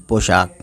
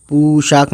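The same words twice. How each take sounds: First: "पोशाक" with an o, po-shaak; correct vowel. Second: "पोशाक" said as poo-shaak, long oo; wrong vowel. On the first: Teacher showing the right reading, o vowel. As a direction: say पोशाक with o, never oo. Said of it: "नहीं पोशाक". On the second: Teacher showing the misreading, wrong vowel. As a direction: put oo in place of o in पोशाक. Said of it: "पोशाक नहीं पोशाक". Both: Shown as a demonstration.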